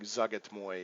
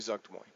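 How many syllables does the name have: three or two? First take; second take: three; two. First: The name is said with three syllables. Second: The name is said with two syllables. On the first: The speaker calls it right. "It's like Zugatmoy or something like that" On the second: The speaker calls it wrong. "but I say Zuktmoy"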